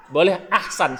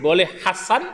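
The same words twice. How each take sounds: First: Ahsan with the h closing the first syllable, ah-san; preacher shows the variant ahsan, ah then san. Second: Hasan with the plain h sound first, no glottal stop; preacher shows the variant hasan, h then a. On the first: Preacher showing congregation the variant ahsan. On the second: Preacher showing congregation the variant hasan. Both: Shown as a demonstration.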